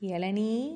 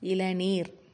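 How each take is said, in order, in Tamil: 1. இந்த சொல் நீண்ட உயிரெழுத்தில் முடிகிறது. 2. இந்த சொல் 'r' ஒலியில் முடிகிறது. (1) "பேச்சு வழக்கில் நம்ம என்ன சொல்லக்கூடாது" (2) "இதை இப்படித்தான் சொல்லணும்"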